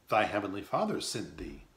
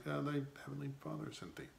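First: Said in the usual way. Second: Unsure, hesitating, quick and softer; hesitant. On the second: Shown as a demonstration. Hester answers daughter Pearl, hesitant and unsure. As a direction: say it as if doubting your own answer. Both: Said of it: "she said it with a hesitation".

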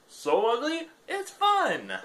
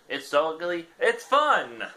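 First: Much higher, squealing cartoon voice; squeaky high repeat. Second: Chirpy, louder read of the blurb; excited ad read. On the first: Repeats the line as her new bio. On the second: Acted. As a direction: sell the ugly fish like an ad. Reading the item description aloud.

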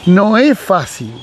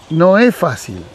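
No difference in how they are said.

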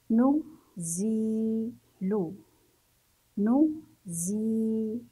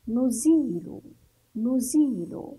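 First: نزيل split into nu, zii, lu; نزيل in separate parts, pausing between them; syllable by syllable. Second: Said in the usual way. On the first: Shown as a demonstration. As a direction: sound out نزيل very slowly with long zii. Teacher breaks word into syllables.

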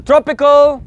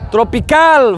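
First: Tropical as "TROP-i-kul"; English tropical with stress first. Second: Tropical as "tro-pee-KAL"; Spanish tropical with full final "al". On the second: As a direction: lean on the end of tropical, Spanish style. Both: Shown as a demonstration. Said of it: "end with al".

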